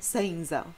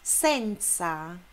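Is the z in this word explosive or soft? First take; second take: soft; explosive. First: The z is a soft buzzing sound. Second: The z is an explosive ts sound. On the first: The speaker calls it wrong. "Não vai ser nunca senza" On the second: The speaker calls it right. "o Z é explosivo"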